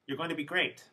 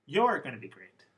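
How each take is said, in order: First: "going" carries the focus pitch, "great" left light; Monica's line, focus on "going"; stress on going. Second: "You're" hit hard and louder with a falling pitch; stress on you're. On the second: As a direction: repeat it back, slam "You're". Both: Retold or imitated. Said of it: "One more time".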